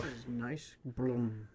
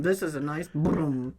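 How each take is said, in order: First: Put-on slow, lower toddler mispronunciation; a little boy cooing at a car. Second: Put-on slow toddler babble. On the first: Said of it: "He didn't say car". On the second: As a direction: say it like a toddler admiring a bumper.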